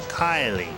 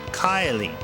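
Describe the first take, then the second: The two takes are said the same way.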